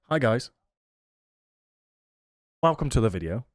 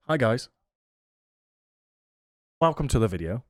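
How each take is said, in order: First: It is said with long silent pauses. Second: It is said with long silent pauses.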